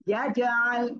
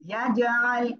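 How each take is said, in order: First: The middle throat sound is clearly pressed out. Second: The same.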